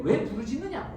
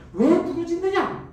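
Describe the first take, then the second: First: Said in the usual way. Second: 왜 drawn out high and slow; a slow scolding 왜 부르짖느냐; rebuking question. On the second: Acted. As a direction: lean on 왜 with reproach. God's rebuke, slower and higher.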